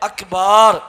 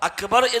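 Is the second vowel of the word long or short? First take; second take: long; short. First: The second vowel is long. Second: The second vowel is short. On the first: It means drums, changing the meaning. The speaker calls it wrong. "അക്ബാർ എന്ന് പറഞ്ഞു" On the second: God is greatest. The speaker calls it right. "അക്ബർ എന്ന് പറയാതെ"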